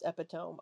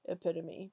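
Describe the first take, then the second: First: The word gets a spelling-based mispronunciation. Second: The word gets its standard pronunciation. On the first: The speaker calls it wrong. "When I was younger, like like a kid, I thought it was pronounced epitome" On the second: The speaker calls it right. "I didn't know it was pronounced epitome"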